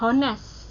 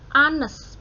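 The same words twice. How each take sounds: First: The word begins with an audible h sound. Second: The word begins with a vowel; h is silent. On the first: The speaker calls it wrong. "bukan honest ya. Salah" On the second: The speaker calls it right. "bacanya itu A seperti A sama E"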